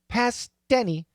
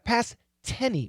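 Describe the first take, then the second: First: A soft, half-released T links the two words. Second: A crisp, fully released T starts the second word. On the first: The speaker calls it right. "It's not the perfect T. It's kind of in the middle" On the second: The speaker calls it wrong. "it's not a past tenny. We don't say tenny"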